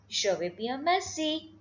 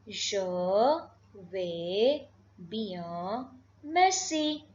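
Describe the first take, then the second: First: Said in the usual way. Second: "Je vais bien, merci" broken by long pauses; word-by-word demonstration. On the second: Shown as a demonstration. Teacher modelling another reply, word-by-word demonstration. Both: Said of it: "So you can say".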